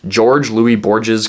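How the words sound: The name is pronounced the English way. "I know I'm anglicizing the name there because I speak English"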